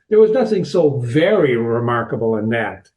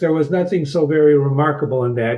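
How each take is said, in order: First: The word 'very' is strongly stressed. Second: The word 'very' gets no special stress. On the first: "if there is italics like there is here, you would read it" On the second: "if you didn't have italics, ... You'd read it that way"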